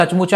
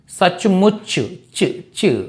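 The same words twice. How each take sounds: First: సచ్ముచ with an open aa after ch; wrong full ending. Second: సచ్ముచ్ slowly, ending on a bare చ్; cut-off final ch. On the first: Teacher shows what to avoid, సచ్ముచ ending in chaa. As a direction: give సచ్ముచ a full last vowel. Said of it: "సచ్ముచ అనకూడదు". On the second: Teacher drills the right ending, సచ్ముచ్ closed on చ్. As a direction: isolate the చ్ of సచ్ముచ్, no aa after it. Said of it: "అంతే తప్ప సచ్ముచ అనకూడదు". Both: Shown as a demonstration.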